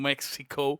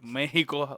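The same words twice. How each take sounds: First: It is pronounced with an English pronunciation. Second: It is pronounced with a Spanish pronunciation.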